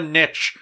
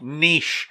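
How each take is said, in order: First: The word is said the American way. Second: The word is said the non-American way. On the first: The speaker calls it wrong. "It's not a niche. Learn the freaking language" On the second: The speaker calls it right. "It's called niche"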